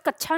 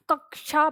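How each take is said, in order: First: कक्षा said with a छ sound, "kachchha"; wrong pronunciation. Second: कक्षा as "kak-sha", क then श; correct pronunciation. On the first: Teacher showing students what to avoid, कक्षा wrongly said with छ. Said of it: "वैसे छ नहीं बोलेंगे". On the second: Teacher correcting the छ reading, कक्षा properly said "kak-sha". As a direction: sound both क and श in कक्षा. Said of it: "कक्षा पढ़ते हैं". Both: Shown as a demonstration.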